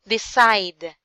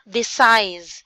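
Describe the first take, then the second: First: The word ends with a d sound. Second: The word ends with an s sound. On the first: The speaker calls it right. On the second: The speaker calls it wrong. "not decise. You said decise"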